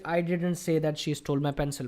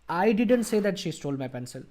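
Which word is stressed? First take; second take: none; I. First: No word gets special stress. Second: The word I is stressed.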